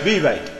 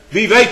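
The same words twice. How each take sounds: First: "Wie weet" cried high and loud. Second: Said in the usual way. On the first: Acted. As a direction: call out "Wie weet" full force. Repeated wie weet, loud then soft. ("Wie weet" luid uitgeroepen)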